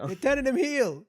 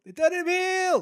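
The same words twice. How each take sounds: First: Excited announcement. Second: Much higher, louder squeal of shock; excited shriek of disbelief. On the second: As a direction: repeat it as a high squeal. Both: Real, not acted. Repeats the shocking news.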